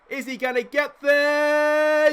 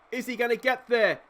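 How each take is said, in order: First: Higher, louder and slowly drawn out; tense excitement. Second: Said in the usual way. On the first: Real, not acted. Fly ball, will he catch it.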